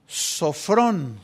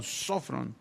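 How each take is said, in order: First: Said in the usual way. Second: Sofrón said softly, stressing the first o; quiet demo of sofrón, first o stressed. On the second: Shown as a demonstration. (sofrón, acento en la primera o) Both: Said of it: "Tiene acento en la primera O".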